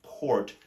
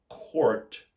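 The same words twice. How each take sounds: First: Court with a soft sounded R at the end; court, pronouncing the soft R; court, letting the soft R be heard. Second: Court said with a clear General American R, pitched up; court, the American way with the R sounded. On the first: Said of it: "you pronounce the soft R". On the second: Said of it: "in the general American accent, you would say for C O U R T". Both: Shown as a demonstration.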